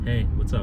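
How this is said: It is said in a low, seductive tone. "that seductive tone"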